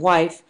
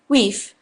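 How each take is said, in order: First: The vowel is an 'eye' sound. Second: The vowel is an 'ee' sound. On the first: This is the modern pronunciation. "rather than wife" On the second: This is the older Scandinavian-influenced pronunciation. "pronunciation of words such as weef"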